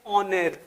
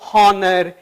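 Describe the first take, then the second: First: The word starts directly with a vowel sound. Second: The word starts with an audible h sound. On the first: The speaker calls it right. "ऑनर आप और भी ले सकते हैं" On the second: The speaker calls it wrong. "अब आप कभी इसको हॉनर ... नहीं पढ़ेंगे"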